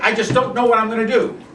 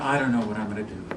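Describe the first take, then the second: First: It is said with high, intense energy. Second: It is said with low, quiet energy. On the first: "Contrast that with it" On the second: "low energy response"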